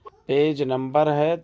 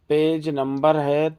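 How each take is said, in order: No difference in how they are said.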